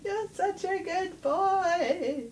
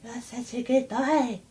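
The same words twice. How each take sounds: First: Put-on very high, slow, cooing baby talk; cat voice. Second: Higher, gentler cooing pet talk; cat voice. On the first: Owner coos at her cat in a very high, slow voice. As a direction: coo it up high and slow like doting on a pet. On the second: Acted. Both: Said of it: "in my cat voice".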